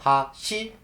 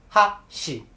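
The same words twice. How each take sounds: First: The pitch rises across the word. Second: The pitch falls across the word. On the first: "The pitch goes up" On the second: "or it goes down"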